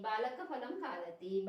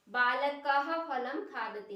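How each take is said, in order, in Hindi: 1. 'phalam' से पहले विसर्ग जल्दी और हल्का बोला जाता है। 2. 'phalam' से पहले विसर्ग पूरा बोला जाता है। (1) "जल्दी से बोल देंगे" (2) "नहीं"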